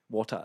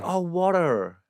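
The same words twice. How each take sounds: First: "water" with a clearly sounded T; T put in. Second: Higher "water" with a D in place of T; American D. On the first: Comic ordering at an American bar, T carefully sounded. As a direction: pronounce the T in "water", softly. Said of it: "I'm putting the tea". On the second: Bar staff finally understanding the comic, Americanised higher "water". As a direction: mimic an American saying "water" with a D. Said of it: "they put a D in there". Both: Retold or imitated.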